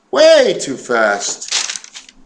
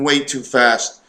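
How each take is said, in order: First: Drawn-out emphasis. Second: Said in the usual way. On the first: Real, not acted. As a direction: drag out "Way too fast" with a big swoop on WAY. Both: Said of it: "I'm talking way too fast".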